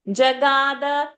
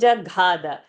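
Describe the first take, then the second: First: The middle g is said without a breath puff. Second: The middle g is said with a breath puff. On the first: The speaker calls it right. "Ga is Alpa Prana" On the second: The speaker calls it wrong. "you are saying Jaghada"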